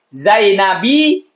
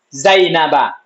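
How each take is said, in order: First: The word ends with an 'i' vowel. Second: The word ends with an 'a' vowel. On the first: The speaker calls it wrong. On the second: The speaker calls it right.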